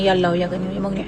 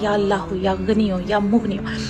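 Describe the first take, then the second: First: It is recited flatly, without warmth. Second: It is recited warmly and lovingly. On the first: The names are recited mechanically, without feeling. The speaker calls it wrong. "ऐसे विर्द नहीं करना है" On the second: God is called on from the heart. The speaker calls it right. "बहुत प्यार से"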